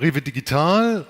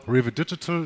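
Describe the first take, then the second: First: The name is pronounced the German way. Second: The name is pronounced the English way.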